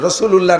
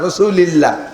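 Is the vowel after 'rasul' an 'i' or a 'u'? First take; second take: u; i. First: The vowel after 'rasul' is 'u'. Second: The vowel after 'rasul' is 'i'. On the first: The speaker calls it wrong. "রাসূলুল্লাহ না" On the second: The speaker calls it right. "রাসূলিল্লাহ বলবেন"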